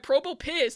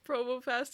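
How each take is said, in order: First: The last syllable sounds like 'piss'. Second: The last syllable sounds like 'pass'.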